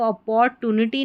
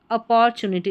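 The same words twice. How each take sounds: First: अपॉर्चुनिटी with a hard T, 'a-por-tu-ni-ty'; wrong pronunciation. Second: अपॉर्चुनिटी with 'ch' in the middle, 'a-por-chu-ni-ty'; correct pronunciation. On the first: Teacher warning learners off a misreading, अपॉर्चुनिटी with hard 'tu'. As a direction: say अपॉर्चुनिटी with 'tu' in place of 'chu'. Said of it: "इसको अपॉर्चुनिटी नहीं बोलना है". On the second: Teacher modelling the word for learners, अपॉर्चुनिटी with 'chu'. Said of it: "तो उसको बोला जाता है अपॉर्चुनिटी". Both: Shown as a demonstration.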